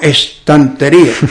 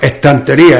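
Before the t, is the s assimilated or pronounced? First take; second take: pronounced; assimilated. First: The s before the t is clearly pronounced. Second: The s merges into the following t sound. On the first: This is not the local way of saying it. "no decimos estantería" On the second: This is the local way of saying it. "la S se pronuncia como esa consonante"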